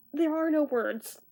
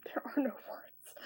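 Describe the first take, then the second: First: Said in the usual way. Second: Barely-there whisper; aghast whisper. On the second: Real, not acted. Reviewer speechless at the creepy graphics, whispered. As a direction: repeat it under your breath, lost for words.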